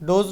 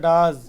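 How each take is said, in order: First: The vowel is a long 'o' sound. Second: The vowel is a short 'uh' sound. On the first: The speaker calls it wrong. "ডোজ নয়" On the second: The speaker calls it right. "উচ্চারণটা ডাজ"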